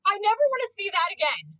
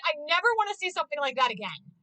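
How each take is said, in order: First: Never punched high and loud, up in pitch; I never wanna see that again, never leaping up and louder; stress on never. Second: Said in the usual way. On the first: Real, not acted. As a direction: hit the word never hard, pitched well up. Disgusted reaction to anime gore.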